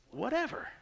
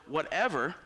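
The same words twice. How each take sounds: First: Whatever drawn up high, rising at the end; stressed whatever. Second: Said in the usual way. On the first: Shown as a demonstration. Preacher explaining a Greek word, whatever rising high. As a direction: lift whatever way up and let it hang. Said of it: "actually means". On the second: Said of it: "when he says the word whatever".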